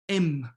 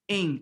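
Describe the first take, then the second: First: The word ends with the lips closed on m. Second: The word ends in a nasal vowel, lips open. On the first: The speaker calls it wrong. "Nobody says M" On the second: The speaker calls it right. "but ing"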